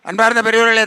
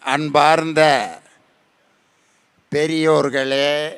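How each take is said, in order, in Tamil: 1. சொற்கள் மிகவும் வேகமாக, அவசரமாகப் பேசப்படுகின்றன. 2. சொற்கள் மிகவும் மெதுவாக, நீட்டி இழுத்துப் பேசப்படுகின்றன. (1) "இன்னும் சில பேர் வேகமாக பேசுவான்" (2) "சில பேர் மெதுவாக பேசுவாங்க"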